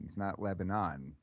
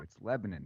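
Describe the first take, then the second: First: Lebanon is said the usual, non-local way. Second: Lebanon is said the local Pennsylvania way. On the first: The speaker calls it wrong. "It's not" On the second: The speaker calls it right. "that's how you say it too"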